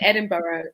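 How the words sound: Edinburgh is said with an American pronunciation. The speaker calls it wrong. "I love how Americans say Edinburgh"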